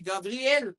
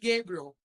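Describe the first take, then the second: First: The name is pronounced the Hebrew way. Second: The name is pronounced the English way. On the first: "Se eu for para Israel" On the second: "Em inglês, se alguém for falar com o americano"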